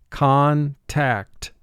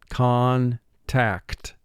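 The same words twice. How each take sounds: The two takes are said the same way.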